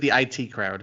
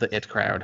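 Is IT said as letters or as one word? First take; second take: letters; one word. First: IT is said as two separate letters. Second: IT is said as the single word 'it'. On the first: "or is it the I T crowd?" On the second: "is it the It crowd"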